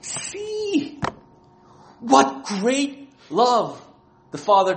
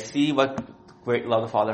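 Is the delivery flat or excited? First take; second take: excited; flat. First: It is said with strong, excited emotion. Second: It is said in a flat, unexcited way. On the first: The statement expresses amazement at great love. The speaker calls it right. "the emotional expression that John is using" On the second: The statement is casual and unimpressed. The speaker calls it wrong. "He's not saying it like that"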